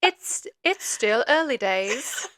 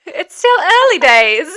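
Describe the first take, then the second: First: Slow, softer go at a British accent; tentative mock-British delivery; British accent attempt. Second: Loud, high, drawn-out British accent; exaggerated mock-British, slow and raised; British accent attempt. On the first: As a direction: try British carefully, drawing it out. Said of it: "That was a British accent?". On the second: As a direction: belt out a hammed-up British accent. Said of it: "my weird British accent". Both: Shown as a demonstration.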